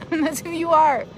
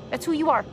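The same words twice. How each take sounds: First: Slow "That's who you are." said through a laugh. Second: Said in the usual way. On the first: Real, not acted.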